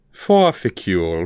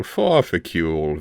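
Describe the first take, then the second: First: Said in the usual way. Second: Slow purring repeat of the name; purred. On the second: A narrator's reading. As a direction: purr it like a cat toying. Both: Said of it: "Vilnix purred".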